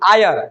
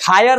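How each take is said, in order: First: The word starts with a vowel, no h. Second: The word starts with an h sound. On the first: The speaker calls it right. "आयर होता है" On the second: The speaker calls it wrong. "हायर नहीं"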